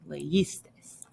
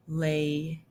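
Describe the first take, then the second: First: "leísteis" in one piece, as le-ÍS-teis; accented form. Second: "leísteis" broken as le, long pause, is-teis; form before accent mark. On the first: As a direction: say "leísteis" softly, stressing the middle syllable. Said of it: "you're gonna have an accent mark". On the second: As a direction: say "leísteis" very slowly, in separate pieces. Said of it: "normally you would have". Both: Shown as a demonstration.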